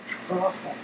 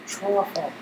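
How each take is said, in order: Both takes have the same delivery.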